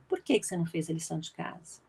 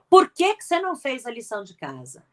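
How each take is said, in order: First: It sounds like a genuinely curious question. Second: It sounds like an irritated, scolding reprimand. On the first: The asker truly wants to hear the answer. The speaker calls it right. "é uma pergunta verdadeira" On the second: The asker is reprimanding rather than asking. The speaker calls it wrong. "Veja que não é"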